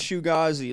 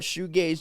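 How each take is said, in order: First: The word is said with three syllables. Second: The word is said with two syllables. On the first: The speaker calls it right. "It's pronounced Shugazi" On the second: The speaker calls it wrong. "A lot of people call it shoegaze"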